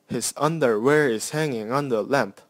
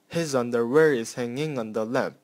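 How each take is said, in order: First: Stress falls on every second syllable. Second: Stress falls once every three syllables. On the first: "an iambic version that I found" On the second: "example of dactyl in the line one and two"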